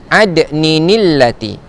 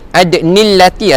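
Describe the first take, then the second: First: An extra 'ni' syllable links the two words. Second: The words join without an extra 'ni' syllable. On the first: The speaker calls it right. "Dia ada tanwin di sini. Jadi cara bacaannya adalah ada ninillati" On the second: The speaker calls it wrong. "salah. Bukan ada nillati"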